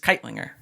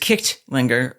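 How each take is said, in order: First: The middle has no 'ch' sound. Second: The middle has a 'ch' sound. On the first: This is how the name is normally said. "you don't pronounce the G. It's just Keitlinger" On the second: This is the name's original form. "So it really is Kichtlinger"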